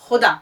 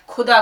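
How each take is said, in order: First: The first consonant is a rasping sound from the throat. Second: The first consonant is a plain aspirated k. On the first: The speaker calls it right. "खे का उच्चारण हलक से" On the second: The speaker calls it wrong. "आपने उसको ख बोल दिया, खुदा कर दिया"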